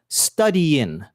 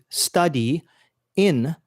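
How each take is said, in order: First: The two words run together as one. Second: Each word is said separately and carefully. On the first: The speaker calls it right. "English has more of a connected pronunciation" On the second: The speaker calls it wrong. "pronouncing every word very carefully"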